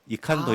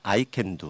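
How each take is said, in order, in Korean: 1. 독일식 모음으로 발음합니다. 'ee-kahn-do'처럼요. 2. 영어식 모음으로 발음합니다. 'eye can do'처럼요. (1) "독일식 발음으로 읽 읽으면" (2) "영어로 하자면"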